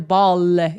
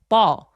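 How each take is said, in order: First: The final L is heavy and exaggerated. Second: The final L is soft and light. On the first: The speaker calls it wrong. "이렇게 과도하게 엘 발음하지 않죠" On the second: The speaker calls it right. "ball이라고 하지"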